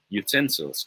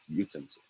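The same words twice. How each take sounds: First: Utensils said yoo-TEN-silz; correct stress. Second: Utensils said YOO-ten-silz; wrong stress. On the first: Tutor sums up after the sentence, second-syllable stress. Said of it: "This one is a matter of stress". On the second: Tutor shows what to avoid, first-syllable stress. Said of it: "not utensils". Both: Shown as a demonstration.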